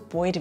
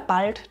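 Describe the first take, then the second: First: The L is said as a vowel sound, like oi. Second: The L is said as a clear L consonant.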